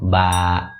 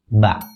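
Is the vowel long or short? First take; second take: long; short. First: The vowel is held long, two beats. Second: The vowel is cut short, one beat. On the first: "Kalau panjang" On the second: "Kalau misalnya vokal pendek kan seperti ini"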